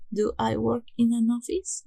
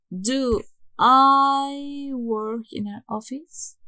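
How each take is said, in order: First: Said in the usual way. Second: Slow, louder, drawn-out model sentence; slow model question. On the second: Shown as a demonstration. Teacher modelling the question order for students, slow and deliberate. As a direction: spell out the question slowly for learners. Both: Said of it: "el auxiliar, primero".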